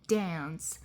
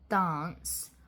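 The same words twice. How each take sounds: First: It is said with an American accent. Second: It is said with a British accent. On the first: "while an American accent says dance" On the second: "a British accent, um, a received pronunciation, might pronounce dance as dance"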